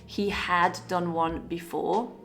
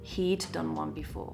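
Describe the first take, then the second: First: Each word is said separately and stiffly. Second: The words are run together smoothly and quickly.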